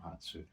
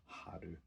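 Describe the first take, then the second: First: "Hatsu" said with a ts sound, HAT-su, as the mistaken name; "Hatsu" spoken softly, HAT-su, before correcting it; wrong name. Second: "Haru" said with an r sound, HA-ru, falling and quiet; final answer "Haru", HA-ru, dropped quietly; corrected name. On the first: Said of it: "Haru, not". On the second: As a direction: settle on "Haru", HA-ru, softly with a falling end. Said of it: "not Hatsu". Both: Real, not acted.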